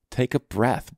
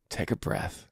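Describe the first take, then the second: First: Said in the usual way. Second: Soft whisper, barely any voice. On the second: Shown as a demonstration. Coach whispers to a tired dad to calm down. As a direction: breathe the words out like a calming coach. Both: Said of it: "coaching a frustrated dad to calm down".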